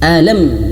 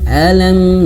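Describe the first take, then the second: First: The final m is cut off abruptly. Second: The final m flows on with slight nasality. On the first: The speaker calls it wrong. "Jangan seperti alam ya'tihim, jangan seperti itu ya" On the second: The speaker calls it right. "nah ada m-nya sedikit"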